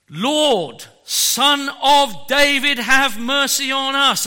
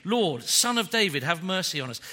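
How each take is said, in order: First: Loud, high cry for mercy; desperate shout. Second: Said in the usual way. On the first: Retold or imitated. Preacher voicing blind men crying to Jesus, loud desperate shout. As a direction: cry out to be heard over the crowd. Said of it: "They shouted out". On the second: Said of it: "look at what they're screaming".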